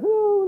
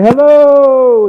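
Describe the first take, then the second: First: It is said very faintly. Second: It is called out loudly.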